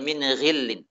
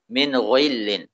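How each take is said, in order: First: The gh sound is plain and not thickened. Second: The gh sound is over-thickened with rounded lips. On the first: The speaker calls it right. "Biasa saja" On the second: The speaker calls it wrong. "mulutnya itu monyong sedikit"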